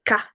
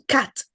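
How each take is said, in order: First: The final t is replaced by a glottal stop. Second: The final t is clearly released. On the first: "Glottalization. ... the word final "t" sound is ... there is a ka" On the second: "instead of saying cat"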